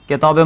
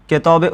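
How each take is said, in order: No difference in how they are said.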